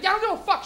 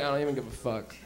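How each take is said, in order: First: High-pitched, defiant retort; angry son. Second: Low, soft don't-care mumble; stoned indifference. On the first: Angry son talking back to his mom, high-pitched. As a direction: snap back in a pitched-up mock temper. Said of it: "I used to get angry at my mom". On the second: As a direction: drop it low and quiet, totally checked out. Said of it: "You're all high, you're just listening". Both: Retold or imitated.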